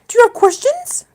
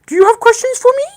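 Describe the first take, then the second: First: It is said in her normal voice. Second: It is said in a put-on Bella voice.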